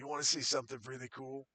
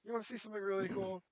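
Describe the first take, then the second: First: It is spoken in the character's usual voice. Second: It is spoken in a put-on fake accent. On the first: "[name] goes back to talking like [name]" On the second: "[name] says in a fake accent"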